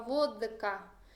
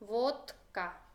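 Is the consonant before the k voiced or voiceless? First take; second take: voiced; voiceless. First: The consonant before the k is voiced. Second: The consonant before the k is voiceless. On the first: The speaker calls it wrong. "Un ruso no va a decir nunca vodka" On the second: The speaker calls it right. "la vamos a leer esta combinación toda sorda"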